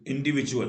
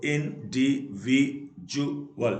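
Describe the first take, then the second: First: Said in the usual way. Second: individual slowly split into five beats; syllable by syllable. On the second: Shown as a demonstration. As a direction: pause between each syllable of individual. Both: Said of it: "तो इसे पांच".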